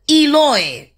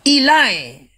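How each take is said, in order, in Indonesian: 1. Nama itu berakhir dengan bunyi 'oy'. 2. Nama itu berakhir dengan bunyi 'eye'. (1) "ciri khasnya O" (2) "Dialek selatan bacanya Ilai"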